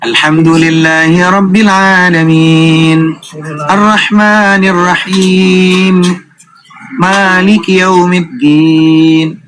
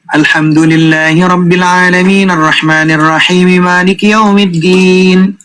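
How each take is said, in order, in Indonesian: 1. Setiap ayat diikuti jeda. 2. Ayat-ayatnya disambung tanpa jeda.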